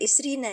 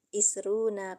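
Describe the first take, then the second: First: The ending is pronounced with an 'i' vowel. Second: The ending is pronounced with a 'u' vowel. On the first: The speaker calls it wrong. "bukan Isrina ya" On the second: The speaker calls it right. "tapi Isruna Kolaman gitu"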